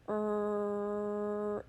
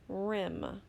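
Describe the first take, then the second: First: The sounds are said slowly and separately. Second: The sounds are blended quickly into one word. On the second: "Now say it fast"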